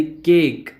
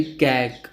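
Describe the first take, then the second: First: केक with a long closed e, kek like cake; correct cake sound. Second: कैक with an open ae, rhymes with back; wrong cat-like vowel. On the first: Teacher showing Hindi-medium students केक said kek, closed e. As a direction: say केक clearly as kek, vowel like in say. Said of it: "ए pronounce करेंगे". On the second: Teacher showing students the mistaken कैक with open ae vowel. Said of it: "उसको ए pronounce करेंगे". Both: Shown as a demonstration.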